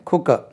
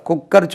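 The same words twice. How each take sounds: First: "குக்கர்" as clean khu-ka, no r; correct pronunciation. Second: "குக்கர்" as kuk-kar with audible r; wrong pronunciation. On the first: Teacher correcting the learners, "குக்கர்" as khu-ka. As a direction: say "குக்கர்" with silent final r. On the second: Teacher saying don't say this, "குக்கர்" as kuk-kar. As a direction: double the k in "குக்கர்" and sound the r. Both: Shown as a demonstration. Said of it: "குக்கர் சொல்லாதீங்க".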